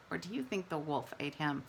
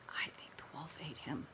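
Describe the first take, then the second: First: Said in the usual way. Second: Hushed conspiratorial whisper; teacher whispering a spooky guess to her class. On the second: Acted. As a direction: lean in and whisper it like a secret. Conspiratorial whispered answer to kids.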